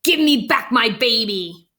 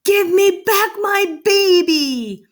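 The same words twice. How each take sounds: First: Milder storybook demand; big fish's demand. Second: High, loud, drawn-out holler; desperate yell. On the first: Big fish wanting its baby back, milder demand. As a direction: firmly demand it, short of a yell. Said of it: "The big fish ... water and said". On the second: Father demanding his child from the fish, yelling. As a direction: yell it down a hole, stretching the words. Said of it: "Cheryl's father yelled down the hole". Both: A narrator's reading.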